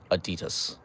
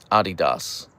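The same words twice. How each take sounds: First: "Adidas" as uh-DEE-dus, stress on the middle; "Adidas" with reduced end vowels, uh-DEE-dus; American pronunciation. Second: "Adidas" as AH-dee-dahs, stressed at the front; "Adidas" with open ah vowels, AH-dee-dahs; German pronunciation. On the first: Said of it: "not Adidas". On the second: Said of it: "say it like an angry German". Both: Shown as a demonstration.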